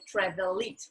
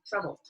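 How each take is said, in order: First: The ending is an extra syllable after travel. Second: The ending is only a consonant, no syllable. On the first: The speaker calls it wrong. "We don't say travel it" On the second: The speaker calls it right. "we say traveled"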